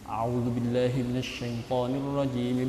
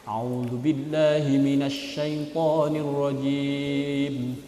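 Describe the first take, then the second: First: It is recited rather quickly. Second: It is recited at a medium pace.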